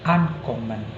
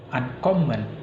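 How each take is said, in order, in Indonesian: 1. Tekanannya jatuh pada suku kata pertama. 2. Tekanannya jatuh pada suku kata yang lebih belakang. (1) "dia ditekan di pertama" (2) "bukan uncommon, bukan gitu"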